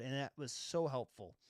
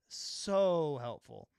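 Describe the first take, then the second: First: Said in the usual way. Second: "So helpful" dragged out slowly, louder, leaning on "So"; slow emphatic repeat. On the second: Real, not acted. Repeating praise of filmmaker mode to the viewers, slow and emphatic. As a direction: stretch out "So helpful" slowly and lean hard on "So".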